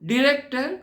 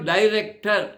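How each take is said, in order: First: The first syllable sounds like 'dih'. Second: The first syllable sounds like 'die'. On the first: "American English వాడు డిరెక్టర్" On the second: "British ఇంగ్లీష్లో డైరెక్టర్"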